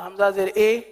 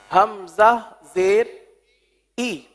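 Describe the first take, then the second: First: The vowel is an open, spread 'e' sound. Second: The vowel is a close, narrow 'ee' sound. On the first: The speaker calls it wrong. "तो ये मजहूल हो जाएगा" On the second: The speaker calls it right. "यह है मारूफ तरीका"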